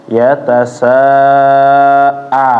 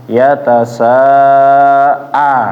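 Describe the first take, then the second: Both takes have the same delivery.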